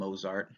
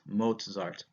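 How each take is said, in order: First: The middle consonant is a plain z sound. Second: The middle consonant is a ts sound. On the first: The speaker calls it wrong. "Don't call him Mozart" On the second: The speaker calls it right. "you get the T Z pronunciation, so it's Mozart"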